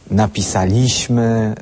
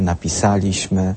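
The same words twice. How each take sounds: First: The stress is on the second-to-last syllable. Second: The stress is on the third-to-last syllable. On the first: The speaker calls it wrong. "kiedy mówią napisaliśmy" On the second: The speaker calls it right.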